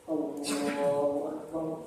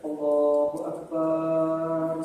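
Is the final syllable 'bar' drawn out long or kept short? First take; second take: short; long. First: The final syllable bar is kept short. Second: The final syllable bar is drawn out long. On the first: The speaker calls it right. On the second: The speaker calls it wrong.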